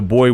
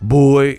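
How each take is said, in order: First: The word is said in a plain, neutral tone. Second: The word is said in a contemptuous, belittling tone. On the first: It simply refers to a young male. "not like, hey, the boy went down the street to fetch a pail of water" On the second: It belittles the listener as inferior. "when people say boy in a derogatory way ... it's a certain tone and tonality to it"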